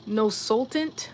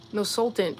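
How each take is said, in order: First: "sultant" slow with a questioning rise; unsure name reading. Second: "No sultant" said firmly with a falling close; settled name reading. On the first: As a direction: sound out "no sultant?" carefully, unsure. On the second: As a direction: commit to "No sultant". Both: Shown as a demonstration. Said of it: "I don't know how you say your name".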